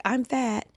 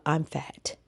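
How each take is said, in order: First: Retold yell. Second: Said in the usual way. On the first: Writer made to yell on boss's orders, high mock yell. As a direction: imitate a forced yell, pitched up. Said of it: "Yell out". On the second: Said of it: "he would call them on the phone and say".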